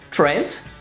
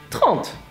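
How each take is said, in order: First: It is said with an English pronunciation. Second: It is said with a French pronunciation. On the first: "It's like Trent" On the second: "but with a French pronunciation"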